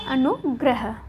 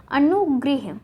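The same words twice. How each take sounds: First: अनुग्रह as "anu-grah"; अनुग्रह, last syllable "grah"; correct form shown. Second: अनुगृह as "anu-grih"; अनुगृह, last syllable "grih"; wrong form shown. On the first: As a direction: say अनुग्रह with short a after gr. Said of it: "क्या होगा?". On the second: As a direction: say अनुगृह with i after gr. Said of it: "न होके क्या होगा". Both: Shown as a demonstration.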